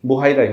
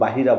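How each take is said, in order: First: The name is said as 'Buhaira'. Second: The name is said as 'Bahira'. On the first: The speaker calls it right. "বুহাইরাই হবে উচ্চারণটা" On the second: The speaker calls it wrong. "বা কেউ বাহিরা বলেছেন"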